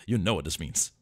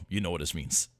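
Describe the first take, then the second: No difference in how they are said.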